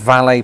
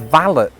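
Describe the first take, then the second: First: The word is said in a French-sounding way. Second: The word is said in an anglicized way. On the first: "That word is valet parking" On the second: "there is another pronunciation, which is valet"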